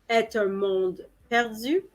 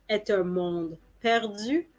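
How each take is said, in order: No difference in how they are said.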